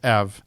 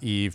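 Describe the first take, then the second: First: The name has a short 'e' vowel. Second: The name has a long 'ee' vowel. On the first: The speaker calls it right. "It's Ev" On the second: The speaker calls it wrong. "Apparently, it's not Eve"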